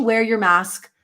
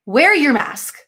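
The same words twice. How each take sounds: First: Said in the usual way. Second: "Wear your mask" pitched up and punched; emphatic order. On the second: Real, not acted. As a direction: insist firmly on "Wear your mask", higher. Repeats request as an order.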